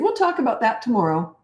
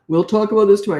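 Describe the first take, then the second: First: It is said in a relaxed, casual tone. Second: It is said in a stern, threatening tone. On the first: The adult is calm and not threatened. The speaker calls it right. "That's how I talk" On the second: The adult seems weak and scared. The speaker calls it wrong. "Never do that stern voice"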